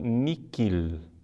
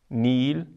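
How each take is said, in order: First: The middle consonant is a k sound. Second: The middle consonant is silent. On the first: The speaker calls it wrong. "com que" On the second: The speaker calls it right. "como se o H não existisse"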